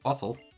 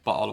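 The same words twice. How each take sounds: First: The t sound is clearly pronounced. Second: The t sound is dropped, replaced by a catch. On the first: "I say it with the T's" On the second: "then I don't usually say it like that"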